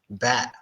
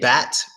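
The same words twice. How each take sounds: First: The final T is stopped in the throat. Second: The final T is fully released. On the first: The speaker calls it right. "the sound is stopped by your throat and nothing else" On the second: The speaker calls it wrong. "We don't say bat"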